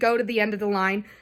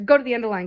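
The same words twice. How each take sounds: First: The phrase is said at a slower pace. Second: The phrase is said at a faster pace.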